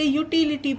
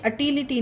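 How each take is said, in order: First: The word begins with a 'you' sound. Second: The word begins with a short 'uh' sound. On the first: The speaker calls it right. "इसे यूटिलिटी पढ़ेंगे" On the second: The speaker calls it wrong. "इसे अटिलिटी नहीं"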